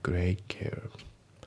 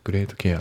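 First: The T of great is dropped. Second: The T of great is clearly pronounced. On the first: The speaker calls it right. "グレートのT が抜けます。" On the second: The speaker calls it wrong. "グレートケアじゃなくて"

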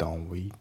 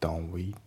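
First: The t of don't is dropped. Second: The t of don't is dropped.

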